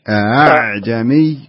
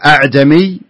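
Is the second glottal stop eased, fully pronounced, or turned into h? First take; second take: eased; full. First: The second glottal stop is weakened, almost a vowel. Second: The second glottal stop is fully and firmly pronounced. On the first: The speaker calls it right. "بينهم أعجمي أعجمي" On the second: The speaker calls it wrong. "ما يصلح نقول أعجمي"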